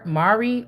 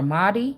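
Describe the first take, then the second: First: The middle consonant is an R sound. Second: The middle consonant is a D sound.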